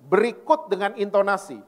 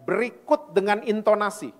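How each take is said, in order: No difference in how they are said.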